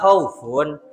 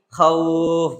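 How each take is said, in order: First: The word ends with a final 'un' sound. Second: The word ends abruptly on the 'f' sound. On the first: The reader continues without stopping. "yang aslinya dibaca khaufun" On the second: The reader stops at this word. "menjadi khauf begitu"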